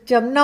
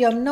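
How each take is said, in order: First: जमुना with an initial J sound; J pronunciation. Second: यमुना with an initial Y sound; Y pronunciation. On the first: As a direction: start जमुना on a hard J, not Y. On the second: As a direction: start यमुना on a Y glide, not J. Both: Shown as a demonstration. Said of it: "एक confusion है".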